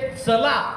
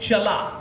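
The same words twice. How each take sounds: First: The word begins with a hissing 'ts' sound. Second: The word begins with a hushing 'ch' sound. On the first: It means let's go somewhere. The speaker calls it wrong. "हे चला असं कदापि नाही" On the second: It means moving or walking. The speaker calls it right. "हे चला"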